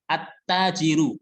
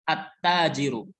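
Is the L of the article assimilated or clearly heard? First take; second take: assimilated; assimilated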